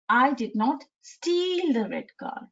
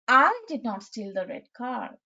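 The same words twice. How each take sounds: First: The word "steal" carries the main stress. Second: The word "I" carries the main stress. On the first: Something other than stealing was done to it. "now the stress has been shifted to steal" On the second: Someone else might have stolen it. "first, I am stressing on the letter I"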